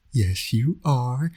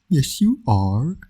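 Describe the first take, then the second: First: Slow, drawn-out coo rising at the end; baby talk. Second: Slow, higher sing-song coo, rising; baby talk. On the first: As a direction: stretch it out gently for the baby. Cooing to the baby son. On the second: Villain dad cooing at his infant son, slow baby talk. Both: Acted.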